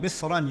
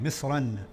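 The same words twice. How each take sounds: First: "Misran" with a clear final n; noon at the end. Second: "Misran." said lower, final n clear; noon at the end. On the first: Teacher showing the tanween, noon sounded. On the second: Teacher repeating the word, final n stressed. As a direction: land on the n of "Misran.". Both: Shown as a demonstration. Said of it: "you can hear the noon at the end".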